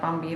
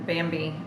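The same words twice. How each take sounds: First: The word begins with a p-like sound. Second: The word begins with a clear b sound. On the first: This is closer to how it is actually said. The speaker calls it right. "it's more like Bambi" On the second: This follows the romanized spelling. The speaker calls it wrong. "than Bambi"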